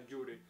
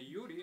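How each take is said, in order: First: The name begins with a strong 'j' sound. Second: The name begins with a soft 'y' sound. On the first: "а «джури»" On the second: "не «юрий»"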